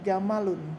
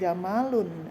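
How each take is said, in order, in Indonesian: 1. Semua vokal dalam kata ini dibaca pendek. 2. Satu vokal dalam kata ini dibaca panjang. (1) "tapi jamalun ya, tidak ada huruf alifnya" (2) "bukan jamalun"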